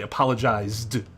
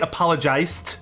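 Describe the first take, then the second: First: The consonant before the ending is a buzzing z. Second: The consonant before the ending is a hissing s. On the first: This is how the speaker's own group says it. "But we say apologized, in which case the S makes significantly less sense compared to the Z" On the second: Another group pronounces it this way. "if you say it like that, then sure, S"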